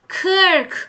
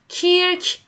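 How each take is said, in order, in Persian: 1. این مصوت یک صدای 'uh' مبهم است. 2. این مصوت یک صدای 'ee' جلویی است. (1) "کرک هستش" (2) "کیرک نیست، ای تلفظ نکنین"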